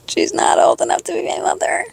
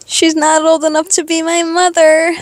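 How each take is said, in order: First: Whispered. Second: Said in the usual way. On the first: Real, not acted. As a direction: repeat it in a hushed whisper. Repeated as whisper.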